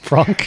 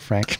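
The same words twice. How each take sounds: First: The name is said with a French pronunciation. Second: The name is said with an English pronunciation. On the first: The speaker calls it right. "Frank I know is the correct pronunciation of your name" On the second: The speaker calls it wrong. "Sorry, not Frank"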